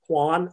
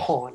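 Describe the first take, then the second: First: The name is said like 'Juan'. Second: The name is said like 'Hahn'. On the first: The speaker calls it wrong. "For the longest time, I pronounced it Juan, and I feel really bad about that" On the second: The speaker calls it right. "Hahn, yes"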